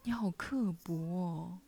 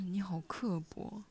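First: It is said with lively, expressive intonation. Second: It is said in a flat, plain tone.

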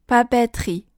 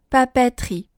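No difference in how they are said.

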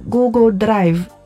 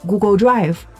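First: It is pronounced with Italian sounds. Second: It is pronounced with English sounds. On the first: "意大利人就会念Google Drive" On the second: "我们用英语习惯的念法"

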